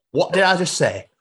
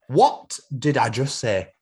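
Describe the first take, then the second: First: High, indignant Yorkshire challenge; Yorkshire boss. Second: Slow, deliberate Yorkshire challenge; Yorkshire boss. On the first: Boss challenging Jeff, raised Yorkshire accent. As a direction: demand it quickly in Yorkshire. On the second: Boss making Jeff answer, slow stern Yorkshire accent. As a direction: spell out each word in Yorkshire. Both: Acted. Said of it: "has been built in Yorkshire".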